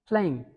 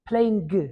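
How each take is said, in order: First: The ending is a soft nasal without g. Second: The ending has a hard g sound. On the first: The speaker calls it right. "Mm. That's the sound" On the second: The speaker calls it wrong. "we read like sing, playing. No"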